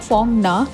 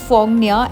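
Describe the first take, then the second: First: The name ends with a plain 'na' sound. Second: The name ends with a 'nya' sound. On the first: The speaker calls it wrong. "Not फोंगना। मैं उसे literal pronounce करी थी" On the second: The speaker calls it right. "It is फोंगनिया"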